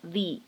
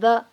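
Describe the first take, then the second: First: The word has a long ee vowel. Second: The word has a short, reduced vowel. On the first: The speaker calls it right. "而相对应的呢应该读成the adoption" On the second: The speaker calls it wrong. "所以这里定冠词不读成the"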